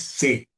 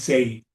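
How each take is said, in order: First: The vowel is a plain 'e' with no glide. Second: The vowel glides from 'e' toward 'i'. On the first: The speaker calls it right. "la pronunciación es C" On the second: The speaker calls it wrong. "no es Sei"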